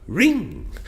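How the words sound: The voice rises on the word. The speaker calls it right. "on ring we were our voice was rising"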